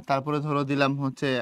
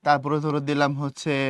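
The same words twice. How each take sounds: The two takes are said the same way.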